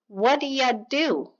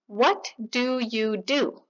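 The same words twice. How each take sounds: First: The words are reduced and blended together quickly. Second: Each word is said clearly and separately. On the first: "普通のネイティブがこのように" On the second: "Clean, unreduced"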